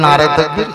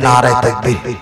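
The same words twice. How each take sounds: First: It is said more loudly. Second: It is said at normal loudness.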